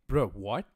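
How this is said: The voice sounds surprised and shocked. The speaker is startled by what was said. "it's not confusion, it's more like shock"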